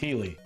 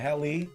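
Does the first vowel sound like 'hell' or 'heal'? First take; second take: heal; hell. First: The first vowel sounds like in 'heal'. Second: The first vowel sounds like in 'hell'. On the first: "dude, it's Healy" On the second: "for saying it that way"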